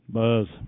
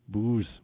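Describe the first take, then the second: First: The vowel sounds like 'uh' as in bus. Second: The vowel sounds like 'oo' as in boot. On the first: The speaker calls it wrong. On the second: The speaker calls it right.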